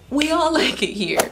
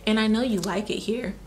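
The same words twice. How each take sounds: First: Breaks into a laugh, higher and louder; a real laugh bursting out mid-line. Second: Said in the usual way. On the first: Real, not acted. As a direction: laugh through the words.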